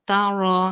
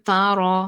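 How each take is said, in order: No difference in how they are said.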